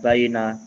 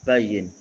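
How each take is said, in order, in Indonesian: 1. Kata ini diakhiri dengan vokal a tambahan. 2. Kata ini berakhir pada konsonan n. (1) "bukan bayina" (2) "ini bacanya bayin ya"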